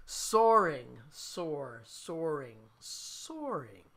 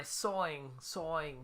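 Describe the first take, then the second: First: "Soaring" with the R clearly sounded; careful R in soaring. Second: "sawing" for soaring, R dropped, New Jersey style; New Jersey accent. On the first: Musician correcting own accent for chat, "soaring" with full R. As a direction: pronounce "soaring" fully, R and all, falling each time. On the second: Musician excusing own word to viewers, New Jersey accent. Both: Shown as a demonstration. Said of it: "excuse my New Jersey accent".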